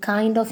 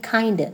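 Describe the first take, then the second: First: Said in the usual way. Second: "Kinda" ending in a schwa; shortened form. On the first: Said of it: "you can shorten it". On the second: Shown as a demonstration. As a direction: blend kind of into "Kinda". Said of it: "you can shorten it and say".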